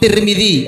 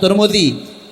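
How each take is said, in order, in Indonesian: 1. Dua vokal pertama bukan bunyi u. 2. Dua vokal pertama keduanya bunyi u.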